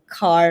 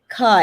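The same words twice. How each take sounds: First: The final r is pronounced. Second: The final r is dropped. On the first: "or car rather than" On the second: "rather than car"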